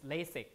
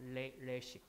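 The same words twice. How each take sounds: First: The s is said as a plain English s. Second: The s is said the Korean way, before the vowel. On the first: "it's LASIK in English like that" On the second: "it's domesticated into Korean and pronounced like the Korean way"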